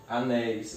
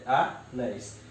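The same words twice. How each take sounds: First: Said in the usual way. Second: "anéis" split into a, then néis; syllable by syllable. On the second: Shown as a demonstration. Teacher shows how it separates, "anéis" syllable by syllable. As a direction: break "anéis" after the first vowel. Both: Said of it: "eu separo assim".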